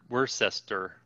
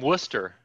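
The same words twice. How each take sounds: First: The name is said with all its syllables. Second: The name is said with syllables dropped. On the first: "instead of" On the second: "we just take syllables out"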